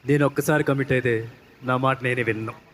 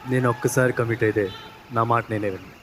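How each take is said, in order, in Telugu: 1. ఆ డైలాగ్ గట్టిగా, బలంగా చెప్పారు. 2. ఆ డైలాగ్ మెల్లగా, నెమ్మదిగా చెప్పారు. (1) "మీరు కమిట్ అయ్యారని మాకు బాగా అర్థమైంది" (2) "చాలా మెల్లగా చెప్పారు"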